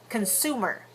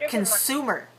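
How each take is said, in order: The two takes are said the same way.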